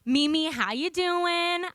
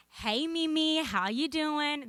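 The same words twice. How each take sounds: First: Put-on fuller Southern accent, slow and higher. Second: Put-on light, relaxed Southern accent. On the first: Granddaughter phoning her Mimi in a broad, slow Southern accent. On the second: Granddaughter greeting her Mimi by phone in a light Southern accent. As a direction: ease into a Southern drawl, slower at the end. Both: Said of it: "This is my Southern accent".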